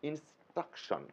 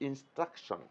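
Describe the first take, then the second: The two takes are said the same way.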